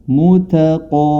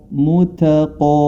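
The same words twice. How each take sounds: The two takes are said the same way.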